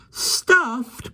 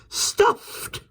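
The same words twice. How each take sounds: First: High, horrified cry. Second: Breathless horrified whisper; gasping whisper. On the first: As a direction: cry it out in horror. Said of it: "cried Jane in a horrified voice". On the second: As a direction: gasp the word in shock. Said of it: "gave a little gasp". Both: A narrator's reading.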